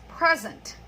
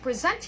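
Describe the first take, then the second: First: The stress is on the first syllable. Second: The stress is on the second syllable. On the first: It is used as a noun. "the second one is a noun" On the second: It is used as a verb. "the first one is a verb"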